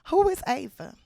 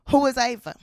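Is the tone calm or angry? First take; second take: calm; angry. First: It is asked calmly with a smile. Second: It is demanded angrily and insistently.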